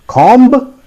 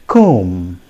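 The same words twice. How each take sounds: First: "Comb" with the b sounded, high loud question; wrong pronunciation. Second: "comb" as "kome", silent b; low falling "comb" held on m; correct pronunciation. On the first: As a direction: ask "Comb" with an audible final b. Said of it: "that is not the correct pronunciation". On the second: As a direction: model "comb" with long o and no b. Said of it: "The correct pronunciation is". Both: Shown as a demonstration.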